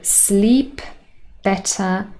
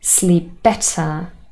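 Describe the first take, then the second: First: The p at the end of sleep is heard. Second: The p is dropped, only the b is heard.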